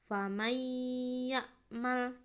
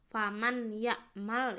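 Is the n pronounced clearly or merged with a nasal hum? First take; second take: merged; clear. First: The n merges into the next sound, nasalized. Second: The n is pronounced clearly and separately. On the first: The speaker calls it right. "Harus dibaca secara dimasukkan dengan dengung" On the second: The speaker calls it wrong. "nggak boleh dibaca secara jelas"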